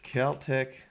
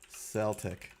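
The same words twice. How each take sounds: First: The word begins with a hard K sound. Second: The word begins with a soft S sound. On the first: "either K" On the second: "or soft S"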